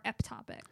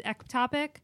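First: "eptopic" with a P sound, "ep-TOP-ick"; softer "eptopic", P replacing the K; pronounced with a P. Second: "ectopic" with a K sound, "ek-TOP-ick"; "ectopic" as one option, K in the first syllable; pronounced with a C. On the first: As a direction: say "eptopic" softly with P before the T. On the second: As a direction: say "ectopic" with a clear K before the T. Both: Shown as a demonstration. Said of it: "I've heard it both ways".

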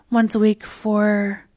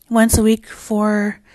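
No difference in how they are said.

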